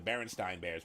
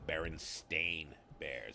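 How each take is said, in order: First: The name ends with a 'stine' sound. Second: The name ends with a 'stain' sound. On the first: The speaker calls it wrong. "It was never the Berenstein Bears" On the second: The speaker calls it right. "It's the Berenstain Bears"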